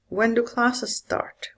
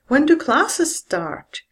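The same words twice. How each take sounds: First: The voice falls from a low pitch. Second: The voice falls from a high pitch. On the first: "The fall is also used with W H questions" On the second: "Or with a high fall"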